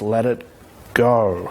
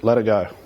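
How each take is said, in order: First: It is said with weight, as if meaningful. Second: It is said casually, as a throwaway line.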